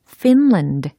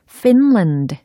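First: The word begins with an f sound. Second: The same.

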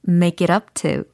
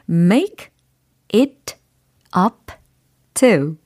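First: The words run together quickly as one. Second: Each word is said slowly and separately. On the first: The speaker calls it right. "그러면 좀 빨리 붙여볼게요" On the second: The speaker calls it wrong. "먼저 개별적으로 띄어서 발음을 해드렸어요"

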